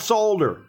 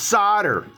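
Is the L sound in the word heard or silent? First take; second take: heard; silent. First: The word is said with an audible L. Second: The word is said with a silent L. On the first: The speaker calls it wrong. "Not solder" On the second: The speaker calls it right. "It's solder. ... The L's silent"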